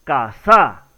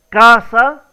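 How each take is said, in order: First: "casa" stressed on the last syllable, caSÁ, falling; "casa" with the accent moved to the final SA; misplaced stress on SA. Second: "casa" loud, stressed on the first syllable, CA; emphatic "CÁsa" with a strong first syllable. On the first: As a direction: land hard on SA in "casa", dropping lower. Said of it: "o la pronunciación correcta sería". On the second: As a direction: punch CA in "casa", louder. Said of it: "es la primera sílaba la que lleva". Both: Shown as a demonstration.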